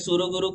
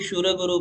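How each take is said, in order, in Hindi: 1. पहला शब्द साधारण s ध्वनि से शुरू होता है। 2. पहला शब्द sh ध्वनि से शुरू होता है।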